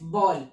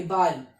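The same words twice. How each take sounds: First: बॉल said with an English open "aw" vowel, like ball; बॉल with a rounded English "aw", the slip; wrong German vowel. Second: बाल with a clear open "ah", German Ball. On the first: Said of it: "sorry, बाल". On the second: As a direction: correct बाल to a broad "ah" vowel. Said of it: "बाल pronunciation बस अलग है". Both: Shown as a demonstration.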